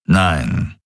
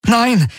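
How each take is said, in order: First: Low, grumbling refusal; grumbled. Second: High, desperate shout of refusal; desperate cry. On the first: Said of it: "brummte Daraios". (tief gebrummt) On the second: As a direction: cry out sharply, pitch shooting up. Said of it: "rief er". (verzweifelter Aufschrei) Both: A narrator's reading.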